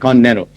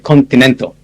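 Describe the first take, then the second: First: It is said in a relaxed American way. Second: It is said carefully, every sound made clear. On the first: "Americans say continental. They don't pronounce it continental. They say continental" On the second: "I try to be clear. So I never say continental anymore. I say continental"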